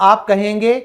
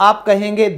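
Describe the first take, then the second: The two takes are said the same way.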